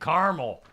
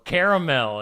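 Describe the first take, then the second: First: The word is said in a plain, everyday way. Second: The word is said in a fancier, refined way. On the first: This is the speaker's own usual way. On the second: This is how fancy people say it.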